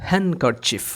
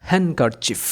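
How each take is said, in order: The two takes are said the same way.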